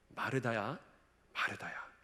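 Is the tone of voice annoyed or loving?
loving. The name is called in a warm, tender tone. The caller understands and comforts her. The speaker calls it right. "사랑을 담고서 부르시는 거예요"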